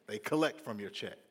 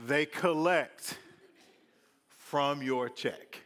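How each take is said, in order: First: Said in the usual way. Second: "They collect from your check" drawn out slowly, each word louder; slow emphasis. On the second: Shown as a demonstration. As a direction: lean hard on "collect".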